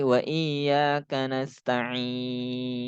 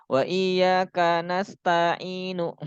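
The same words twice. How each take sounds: First: "nasta'in" with short TA, very long final IN; quick ta, then hold the end of "nasta'in"; ta dibaca pendek. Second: "nasta'inu" with TA wrongly drawn out; ta dibaca panjang. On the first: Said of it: "nggak boleh dibaca panjang". ("nasta'in": ta pendek, akhirnya panjang) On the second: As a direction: stretch the ta in "nasta'inu", higher pitch. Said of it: "taknya pendek". ("nasta'inu" dengan ta dipanjangkan) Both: Shown as a demonstration.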